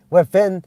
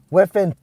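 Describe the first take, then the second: No difference in how they are said.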